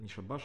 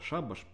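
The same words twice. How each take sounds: First: The stress is on the second syllable. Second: The stress is on the first syllable. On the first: The speaker calls it wrong. "что не шабаш" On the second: The speaker calls it right. "а шабаш по литературному русскому языку"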